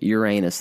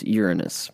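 First: Uranus is said with the giggle-worthy sound. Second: Uranus is said without the giggle-worthy sound. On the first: The local name of the Missouri town. "and yes, it is pronounced Uranus there" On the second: The grown-up, correct name of the planet. "pronounce it the right way, which is Uranus"

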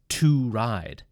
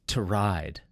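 First: The vowel in 'to' is full and clear. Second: The vowel in 'to' is reduced and weak. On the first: "Notice it's not to ride" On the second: "The O kind of disappears"

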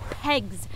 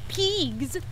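First: The vowel sounds like the one in 'egg'. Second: The vowel sounds like the one in 'eel'. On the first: The speaker calls it right. "it's pegs" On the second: The speaker calls it wrong. "not peegs"

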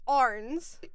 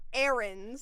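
First: The name is said as one syllable. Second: The name is said as two syllables. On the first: The speaker calls it right. "it's Arns" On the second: The speaker calls it wrong. "Not Ahrens"

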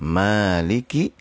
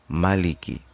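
First: The first vowel is drawn out long. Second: The first vowel is kept short. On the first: It means the king of kings. "Arti untuk yang pertama adalah maliki itu adalah raja diraja" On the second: It means the one who owns. "yang kedua adalah maliki artinya adalah yang memiliki"

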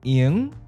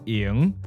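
First: The word is said in the ninth tone. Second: The word is said in the fifth tone. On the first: It means tonight. "I first said ying in the ninth tone, which means tonight" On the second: It means free or not busy. "ying, not busy, free, which is in the fifth tone"

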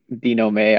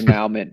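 First: The word is said with a French-style pronunciation. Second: The word is said with a Texan-style pronunciation. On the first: The speaker calls it right. "but it's not. It's like" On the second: The speaker calls it wrong. "I always want to say it wrong because my East Texas comes out"

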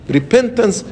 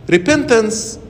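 Both takes have the same delivery.

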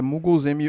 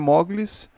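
First: The first vowel sounds like 'uh'. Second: The first vowel sounds like 'o'. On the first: The speaker calls it right. "é muggles" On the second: The speaker calls it wrong. "não é mogles"

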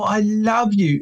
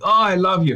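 First: It is said in a gushing, effusive tone. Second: It is said in a reproachful, guilt-laden tone. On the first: The love is about the parent's own feelings. "The second one is, oh" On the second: The love is used to make the child feel guilty. "There's three ways to say I love you"

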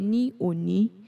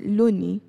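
First: It is said in full as separate words. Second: It is contracted, the first word becoming l-. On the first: "instead of saying" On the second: "I changed the ni to L apostrophe"

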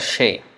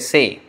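First: The word begins with an sh sound. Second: The word begins with a plain s sound. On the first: This is how it is said in Bangladesh and other Bengali areas. "in Bangladesh or in other parts... they may pronounce it as Shay" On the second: This is how it is said in Kolkata. "in Kolkata they would say Say"

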